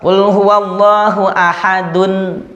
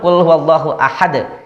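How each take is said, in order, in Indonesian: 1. Kata terakhir berakhir dengan vokal penuh dan nasal. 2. Kata terakhir berakhir dengan huruf henti berpantulan. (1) "Ketika dia dibaca wasol" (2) "ketika dia waqaf jadi sukun"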